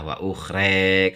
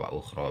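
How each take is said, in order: First: The final vowel leans toward an e sound. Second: The final vowel is a plain open a. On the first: This follows another reading tradition. "Imalah wa ukhre kalau Imam Waros" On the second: This is the usual reading. "wa ukhra biasa"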